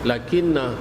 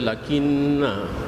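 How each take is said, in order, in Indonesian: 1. Vokal akhirnya ditahan pendek. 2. Vokal akhirnya dipanjangkan. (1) "dibaca dengan pendek" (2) "Tak boleh dibaca lakinna ataupun na"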